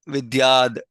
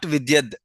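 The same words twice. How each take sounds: First: The 'a' vowel is long. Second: The 'a' vowel is short. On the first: The speaker calls it right. "whenever there's a line on top of it, is is pronounced as ah" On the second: The speaker calls it wrong. "not vidyad"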